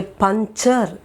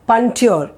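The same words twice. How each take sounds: First: "puncture" as punk-char, slowly; ch sound in puncture. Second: "puncture" with a t-y sound for the ch; wrong puncture. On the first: Teacher models the word for Hindi learners, "puncture" with a clear, slow ch. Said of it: "I say puncture". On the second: Teacher shows learners what not to say, wrong "puncture" with a T sound. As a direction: say "puncture" as punk-tyur, sounding the T. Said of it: "I don't say it is". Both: Shown as a demonstration.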